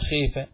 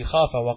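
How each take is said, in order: First: The long vowel is tilted toward 'e' (imala). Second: The long vowel is a plain open 'a'.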